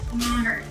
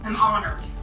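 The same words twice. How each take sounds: First: It sounds warm and pleasant. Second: It sounds angry and harsh.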